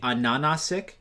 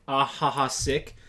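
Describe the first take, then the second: First: The name is said with N sounds instead. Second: The name is said with H sounds, like laughing. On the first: The speaker calls it right. "their name is actually Ananasik" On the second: The speaker calls it wrong. "I thought that his name was Ahaha, like laughing"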